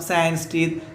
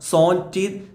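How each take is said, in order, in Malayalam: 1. 'sans' English രീതിയിലാണ് പറയുന്നത്, 's' യിൽ അവസാനിക്കുന്നു. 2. 'sans' ഫ്രഞ്ച് രീതിയിലാണ് പറയുന്നത്, 'son' പോലെ. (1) "ഇംഗ്ലീഷ് ഉച്ചാരണത്തിൽ" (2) "സോൻ എന്നാണ് ഫ്രഞ്ച് ഉച്ചാരണത്തിൽ വായിക്കുക"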